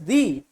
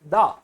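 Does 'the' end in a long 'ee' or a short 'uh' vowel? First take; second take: long ee; short uh. First: It is said with a long 'ee' vowel. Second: It is said with a short 'uh' vowel. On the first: The next word starts with a vowel sound. "If the sound next to the is vowel, then we pronounce it as the" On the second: The next word starts with a consonant sound. "if the sound next to the is consonant, then we pronounce it the"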